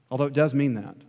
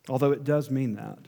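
No difference in how they are said.

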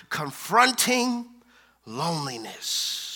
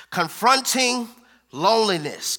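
First: Lingering, sinking to a hush on loneliness; confronting pulled long, loneliness falling soft; slow drawn-out. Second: Said in the usual way. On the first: Shown as a demonstration. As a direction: stretch confronting slowly, then let loneliness drop quiet. Preacher drawing out the series title.

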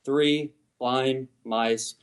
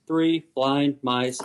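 First: Each word started and stopped very slowly; very slow, clipped cadence. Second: Very slow, deliberate three blind mice; slow rhythmic cadence. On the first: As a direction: say three blind mice slowly, cutting off every word. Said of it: "start the note, stop the note". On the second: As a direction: stretch each word out slowly like a tune. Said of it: "the song Three Blind Mice". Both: Shown as a demonstration.

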